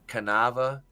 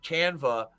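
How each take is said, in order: First: The word is said with three syllables. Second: The word is said with two syllables. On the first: The speaker calls it wrong. "What did you used to call it?" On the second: The speaker calls it right. "I pronounced it right"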